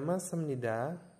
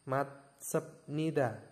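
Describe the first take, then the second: First: The consonant before nida is an m sound. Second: The consonant before nida is a b sound. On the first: The speaker calls it right. "dibacanya masamnida" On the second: The speaker calls it wrong. "baca tulisannya tanpa dikenakan hukum bacaan, kan tidak enak"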